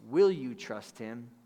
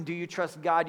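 First: Slow, leaning hard on "Will"; "Will you trust him?" drawn out with weight on "Will"; stress on will. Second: Said in the usual way. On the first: Shown as a demonstration. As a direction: land on "Will" as an invitation. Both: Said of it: "But if I asked you this question".

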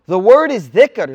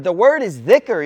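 First: Louder, slow: The word is dhikr, leaning on word; preacher hammering the term dhikr home; emphatic repeat. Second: Said in the usual way. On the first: Shown as a demonstration. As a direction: land The word is dhikr slowly and firmly. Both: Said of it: "Listen, listen".

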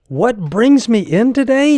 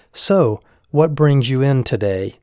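First: Much higher and louder, repeating it in disbelief; incredulous echo. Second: Lightly voiced breezy doctor, easygoing; casual chit-chat. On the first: Retold or imitated. Patient echoing the young doctor's question, aghast. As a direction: throw the question back, aghast. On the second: Young doctor greeting a worried patient, casual and breezy. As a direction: toss it off like small talk over tea. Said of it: "as if he were chatting over a cup of tea".

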